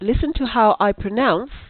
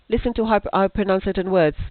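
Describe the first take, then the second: First: There is a clear pause after pronounce. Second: It flows on without a pause after pronounce. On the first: The speaker calls it right. "I paused" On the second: The speaker calls it wrong. "I don't say"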